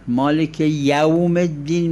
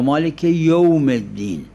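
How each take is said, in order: First: The vowel in 'yawm' is an open 'a'. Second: The vowel in 'yawm' is rounded toward 'u'.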